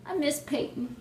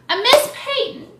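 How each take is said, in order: First: Higher-pitched, softer little whine; quiet, pining fan voice; soft lament. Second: High, loud cry of longing; big high fangirl outburst; gushing wail. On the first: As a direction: say it small and wistful. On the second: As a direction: wail it out loud like a devoted fan. Gushing over a missed player. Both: Real, not acted.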